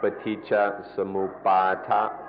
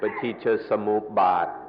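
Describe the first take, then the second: First: The term is said in its full, longer form. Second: The term is said in a clipped, shorter form. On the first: This is how it is said in Pali. "But in the Pali, it's more like" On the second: This is how it is said in Thai. "In Thai, the pronunciation is a little shorter"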